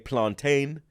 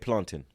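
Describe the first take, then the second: First: It is said with an African pronunciation. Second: It is said in the speaker's own accent. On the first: "The Africans say" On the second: "We say"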